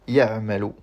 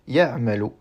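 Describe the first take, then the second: The two takes are said the same way.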